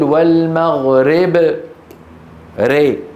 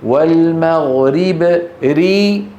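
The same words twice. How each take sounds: First: The final vowel is tilted toward e. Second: The final vowel is a pure i. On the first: The speaker calls it wrong. "ري هذه إمالة" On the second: The speaker calls it right. "ري هذه كسرة"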